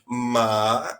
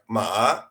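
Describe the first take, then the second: First: The pitch falls and then rises again. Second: The pitch rises toward the end. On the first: It means horse. "You you decrease and raise the sound" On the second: It means hemp. "like it's raising"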